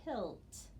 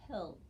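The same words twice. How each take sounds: First: Pilt with a crisp L then T; teacher modelling pilt clearly; careful pronunciation. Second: Pilt repeated quietly, L and T still clear; quiet echo of pilt; softer repeat. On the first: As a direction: sound every letter of pilt in order. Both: Shown as a demonstration. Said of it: "So I would pronounce that pilt".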